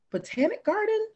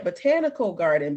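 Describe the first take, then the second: First: "Botanic Garden" with a sudden high jump on "Botanic"; correcting the name. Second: "Botanical Garden" said back in the normal voice; corrected name. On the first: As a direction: trip on the word "Botanic" in a high voice. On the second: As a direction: fix it with the proper "Botanical". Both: Shown as a demonstration. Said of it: "I have to make sure I be saying it right".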